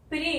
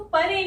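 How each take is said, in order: First: प्रे as one syllable, p and r joined, pray; correct cluster. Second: परे said pa-re with a full vowel between p and r; wrong split vowel. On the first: Teacher models the right one-syllable pray for students. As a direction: glide straight from p into r: प्रे. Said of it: "इसको प्रे बोलना है". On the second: Teacher shows students the wrong two-syllable pa-re. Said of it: "इसको परे नहीं बोलना है". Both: Shown as a demonstration.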